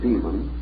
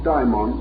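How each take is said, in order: First: It is said in the familiar English way. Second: It is said in the Greek way. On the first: It means an evil being. "calling one our familiar term, the term demon" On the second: It means a god or spirit. "the Greek form daimon or daemon"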